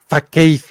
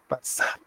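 First: The middle consonant is a 'k' sound. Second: The middle consonant is an 's' sound. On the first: The speaker calls it wrong. "Yo antes pronunciaba Fakeid" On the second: The speaker calls it right. "no tiene nada que ver mi pronunciación toda culera"

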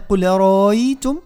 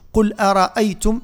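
First: The second glottal stop is softened. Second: The second glottal stop is fully pronounced. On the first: The speaker calls it right. "الهمزة الأولى فيها تحقيق قل أ، والثانية فيها تسهيل" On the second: The speaker calls it wrong. "علاش ما نقولش"

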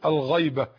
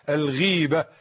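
First: The first vowel is 'ay', as in ghayba. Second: The first vowel is long 'i', as in ghiba. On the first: It means absence, the opposite of presence. The speaker calls it wrong. "خطأ لغوي" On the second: It means backbiting. The speaker calls it right. "والنطق الصحيح كما تعلم أنت"

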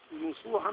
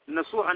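First: The first consonant is followed by a 'u' vowel. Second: The first consonant is followed by an 'a' vowel. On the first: "وضمها" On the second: "بفتح النون"

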